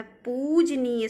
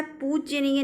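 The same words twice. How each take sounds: First: पूजनीय as a long pooj, then neey; correct form पूजनीय. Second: पूजनीय with a y slipped after the j; wrong form पूज्यनीय. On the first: Teacher gives the pure form, पूजनीय as pooj-neey. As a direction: say पूजनीय without y after j. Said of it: "शुद्ध है". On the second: Teacher rejects a common misprint, extra y in पूजनीय. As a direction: say पूजनीय as pooj-ya-neey. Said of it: "नहीं". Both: Shown as a demonstration.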